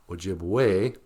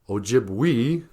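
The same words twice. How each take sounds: First: The final vowel is said like 'ay'. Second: The final vowel is not said like 'ay'. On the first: The speaker calls it right. "we say Ojibwe" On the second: The speaker calls it wrong. "We don't say Ojibwe"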